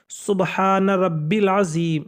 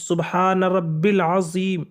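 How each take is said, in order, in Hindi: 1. बीच का शब्द छोटा "rabbil" पढ़ा जाता है। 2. बीच का शब्द छोटा "rabbil" पढ़ा जाता है।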